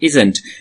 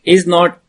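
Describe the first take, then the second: First: The two words merge into one word. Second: Both words are said fully and separately.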